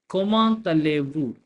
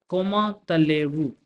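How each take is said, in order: The two takes are said the same way.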